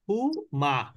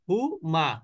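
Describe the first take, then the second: No difference in how they are said.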